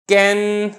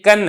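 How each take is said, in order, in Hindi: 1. स्वर 'e' ध्वनि की ओर झुका हुआ है। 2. स्वर एक सादा खुला 'a' है। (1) "फतह को ही मैंने झुका दिया और मैंने इमाला कर दिया" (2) "अब ये कन है"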